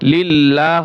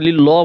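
First: The word ends with a full final 'ah' syllable. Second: The word ends abruptly without the final 'ah' syllable. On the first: The speaker calls it right. "লিল্লাহ হবে" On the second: The speaker calls it wrong. "এখানে ভুল করে লিল্ল বলবে না"

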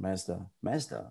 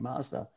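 First: It is said the Canadian way. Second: It is said the American way. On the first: The speaker calls it right. "the Canadians were pronouncing Mazda" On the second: The speaker calls it wrong. "the Americans were saying Mazda"

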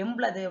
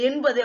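First: It is said as embalathu, with an l sound. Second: It is said as enbathu, without an l sound. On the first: This is the form used in the central regional dialect. "அவங்க 80 அப்படிங்கிறாங்க" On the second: This is the common form most speakers use. "அது 80 அப்படின்னு நம்ம சொல்லுவோம்"

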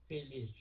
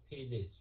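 No difference in how they are said.

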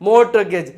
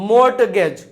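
No difference in how they are said.

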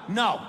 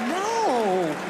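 First: It is said as a firm, serious refusal. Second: It is said teasingly, like a flirty protest.

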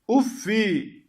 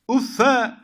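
First: The word ends in a short -i vowel. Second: The word ends in a short -a vowel. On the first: "Yani teminsiz" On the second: "Vel fethu li tahfif uffe"

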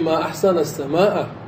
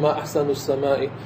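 First: The word endings use open 'a' vowels. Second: The word endings use closed, non-open vowels. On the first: It exclaims how beautiful the sky is. The speaker calls it right. "وافتحي فاكي" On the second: It asks what is most beautiful in the sky. The speaker calls it wrong. "لا تقولي ما أحسن السماء"

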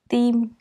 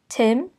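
First: The starting T sound is soft and subtle. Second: The starting T sound is strong and forceful. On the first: "That's the Vietnamese" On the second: "And for English"

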